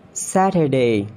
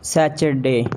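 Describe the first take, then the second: First: "Saturday" as SAT-uh-day; British pronunciation. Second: "Saturday" as SA-chur-day; CH sound in "Saturday"; mispronounced Saturday. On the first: Shown as a demonstration. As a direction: clear T in "Saturday". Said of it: "It's a Saturday". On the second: Acted. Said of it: "not Saturday".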